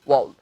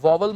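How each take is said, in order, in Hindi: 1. बीच में कोई 'v' की आवाज़ नहीं बोली जाती है। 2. बीच में 'v' की आवाज़ बोली जाती है। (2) "इसे वावल मत कहना"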